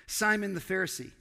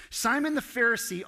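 First: Said in the usual way. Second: Simon the Pharisee said higher and louder, leaning on the name; louder repeat. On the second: Shown as a demonstration. Pastor names Simon again to the congregation, louder and higher. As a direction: hit Simon the Pharisee higher and harder the second time.

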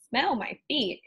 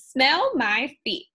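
First: Said in the usual way. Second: Slow, loud, leering Smell my feet; louder witchy taunt with smell stretched; mocking witch. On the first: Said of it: "when Susie opened her mouth". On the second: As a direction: drag out 'Smell my feet' like a gloating witch. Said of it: "cracked O-, Ophelia".

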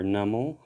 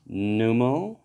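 First: "Numel" with a short "uh" in the first syllable, NUM-ul; "Numel" starting like "numb"; alternative pronunciation. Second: "Numel" with an "oo" in the first syllable, NOO-mul; "Numel" rhyming its start with "new"; alternative pronunciation. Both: Shown as a demonstration. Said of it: "how you would like to say it".

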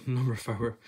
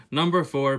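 First: FOUR said as two-syllable "fower"; Scots pronunciation. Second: Translate to a plain English FOUR, said deliberately; standard English pronunciation. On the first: Reading the doormat address from the book, in Scots pronunciation. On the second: Translating the address for viewers, in standard English pronunciation. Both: Shown as a demonstration.

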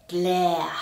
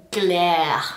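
First: Said in the usual way. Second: "Glare" said louder and heavier; emphatic disgusted "Glare"; disgusted punch. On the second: Shown as a demonstration. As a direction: hit "Glare" hard with disgust. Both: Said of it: "as bad as it sounds".

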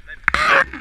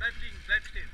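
First: Much higher, much louder call; shouted correction. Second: Said in the usual way. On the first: Real, not acted. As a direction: yell it so they stop.

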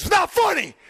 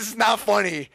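First: High, loud mock-furious outburst; angry dad yell. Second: Milder mock scolding, somewhat raised pitch; retold angry dad. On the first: Dad turning on his laughing sons, angry yell. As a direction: yell it like a dad who's had enough. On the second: Son re-quoting his mad dad, mild scolding. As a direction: repeat dad's telling-off with less force. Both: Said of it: "he's getting mad that we think it's funny".

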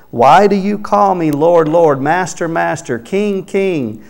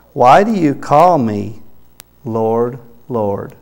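First: "Lord, Lord, Master, Master, King, King" hammered out, higher and louder; repeated titles stressed. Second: Said in the usual way. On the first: Shown as a demonstration. Preacher driving home Jesus' repeated "Lord, Lord" to the congregation, emphatic. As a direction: lean hard into each repeated "Lord" and "King". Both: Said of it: "making his emphasis there".

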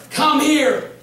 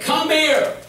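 First: Lightly voiced sweet call, higher; "Come here." sung out higher, sweet; calling him back. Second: Lightly voiced sweet call, higher; a wife's sing-song come here; calling him back. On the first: Wife calls him back from the truck, higher sing-song call. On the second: Wife calling him back to her, higher sing-song call.

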